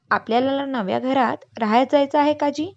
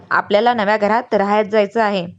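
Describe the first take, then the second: First: Higher, rising on जायचं, a hopeful question; child pestering his uncle about the new house, eagerly; eager child's question. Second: Louder, level, settled fall on जायचं; calm confirmation. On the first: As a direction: ask it like an excited kid with जायचं lifted up. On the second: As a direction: say it like the elder settling the matter. Grandfather calmly confirms to children. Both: Acted.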